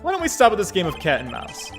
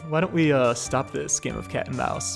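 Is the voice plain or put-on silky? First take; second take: plain; silky. First: It is read in a plain, ordinary voice. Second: It is said in a put-on, smooth, seductive voice.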